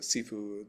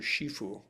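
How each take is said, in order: First: It is said in the Cantonese way, hard s. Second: It is said in the Mandarin way. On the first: "with a hard S is Cantonese" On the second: "that's the Mandarin pronunciation of the same term"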